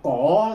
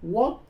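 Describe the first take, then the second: First: The character is read in Mandarin pronunciation. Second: The character is read in Vietnamese pronunciation. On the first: "Đọc cổ thì cái đó là người quan thổi" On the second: "chúng ta người Việt thì đọc cái chữ này là quốc"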